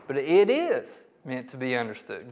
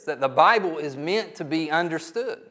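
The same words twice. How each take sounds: First: "is" lifted and leaned on, rising; stress on is. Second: Said in the usual way. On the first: Shown as a demonstration. Preacher to doubting congregation, stress on "is". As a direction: insist on "is" to push back on the doubt.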